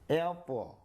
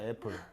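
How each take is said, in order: First: The word is said stretched out and drawn long. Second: The word is said short and plain.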